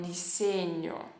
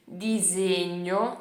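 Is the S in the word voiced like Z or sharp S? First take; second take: S; Z. First: The S is a sharp, unvoiced S. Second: The S is voiced like a Z. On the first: This is how people in Tuscany say it. "com S forte" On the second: This is how people in the speaker's region say it.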